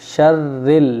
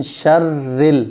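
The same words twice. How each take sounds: Both takes have the same delivery.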